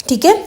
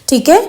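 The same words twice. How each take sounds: Both takes have the same delivery.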